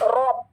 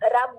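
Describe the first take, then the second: First: The vowel after the r is a full 'aw'. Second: The vowel after the r is a light 'uh'. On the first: The speaker calls it right. "रॉ वाली sound" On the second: The speaker calls it wrong. "Urdu में जैसे हम रब रब बोलते हैं ना, ये रब नहीं है"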